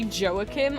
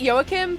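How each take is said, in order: First: The name begins with a J sound. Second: The name begins with a Y sound. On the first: It follows the English way of reading J. "it is spelled with a J, so it could be Joachim" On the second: It follows the European way of reading J. "I pronounce it Joachim"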